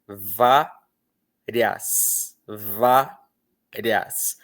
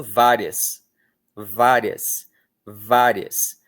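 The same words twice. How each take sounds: First: "Várias" split in two, vá, pause, rias; sílaba por sílaba. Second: "várias" run together, the i a quick glide; I muito rápido. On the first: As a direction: say "Várias" slowly, syllable by syllable. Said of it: "Veja como você pronuncia". ("Várias" separado: vá, pausa, rias) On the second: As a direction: say "várias" in two joined syllables, barely touching the i. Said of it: "com muita rapidez". ("várias" natural, com o i bem rápido) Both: Shown as a demonstration.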